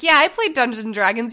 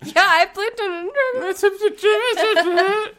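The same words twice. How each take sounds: First: It is said plainly in a steady voice. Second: It is said with a quiver in the voice.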